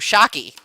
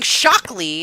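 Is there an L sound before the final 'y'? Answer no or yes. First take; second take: no; yes. First: No L sound comes before the final vowel. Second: An L sound comes before the final vowel. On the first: "I thought it was hockey with an S in front of it" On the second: "You add an L. You're saying Shockley"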